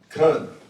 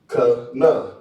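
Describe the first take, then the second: First: It is said as one closed syllable. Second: It is said as two separate syllables. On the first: The two characters are joined together. "But if I put it together, I would pronounce it kun" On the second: The two characters stand apart. "They separate. So I would pronounce it ka na"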